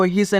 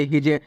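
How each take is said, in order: First: ही से with long "ee" and hissed S; wrong reading of HIS. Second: his ending in a voiced J; correct reading of HIS. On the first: Teacher warning learners off a misreading, ही से as "hee-se". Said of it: "नहीं पढ़ना है". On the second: Teacher giving learners the right reading, his as "hij". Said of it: "इसे आपको क्या पढ़ना है". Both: Shown as a demonstration.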